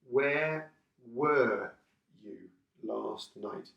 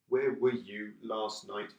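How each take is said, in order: First: The word 'were' is said in full form. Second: The word 'were' is said in reduced form.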